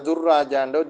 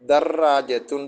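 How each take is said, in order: First: The first vowel is a 'u' sound. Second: The first vowel is an 'a' sound. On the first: The speaker calls it wrong. "வாசிக்கிறல்ல" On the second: The speaker calls it right. "தர்ராஜத்துன் தான் நம்ம வாசிக்கணும்"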